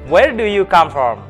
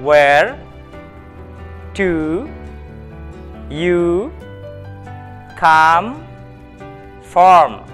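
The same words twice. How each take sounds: First: The question is spoken at a very fast pace. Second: The question is spoken at a moderate pace. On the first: "Lebih cepat lagi" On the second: "kita ulangi sekali lagi"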